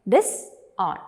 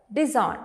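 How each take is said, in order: First: "disown" split in two with a pause; syllable by syllable. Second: Said in the usual way. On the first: Shown as a demonstration. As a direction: break "disown" into dis, then own. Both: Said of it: "You can break down this word".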